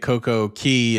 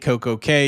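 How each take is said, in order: First: The last word sounds like 'key'. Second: The last word sounds like 'kay'. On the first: It follows the word's usual pronunciation. The speaker calls it right. "I kept saying "perfect day" at Coco Key" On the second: It follows the company's marketing name. The speaker calls it wrong. "you should call Perfect Day a Coco K"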